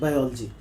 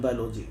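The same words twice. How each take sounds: First: Biology said as "bai-OL-jee"; correct pronunciation. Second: Biology said as "bai-LO-jee"; students' mispronunciation. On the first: Interviewer giving the right form, biology pronounced bai-ol-jee. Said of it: "we must know that right pronunciation is". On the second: Interviewer quoting most students, biology mispronounced as bai-lo-jee. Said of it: "The most of students, they pronounce it". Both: Shown as a demonstration.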